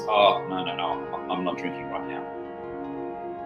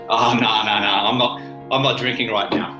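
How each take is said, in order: First: It sounds timid and worried. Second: It sounds confident and self-assured.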